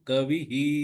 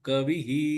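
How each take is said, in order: No difference in how they are said.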